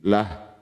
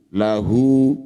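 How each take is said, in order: First: The final vowel is dropped, ending on h. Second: The word ends with a final u vowel. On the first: The reader stops at this word. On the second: The reading continues without stopping.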